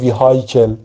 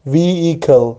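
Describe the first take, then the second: First: The h sound in the middle is pronounced. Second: The h sound in the middle is silent. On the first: The speaker calls it wrong. "همیشه من میگفتم vehicle" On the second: The speaker calls it right. "اچش تلفظ نمیشه"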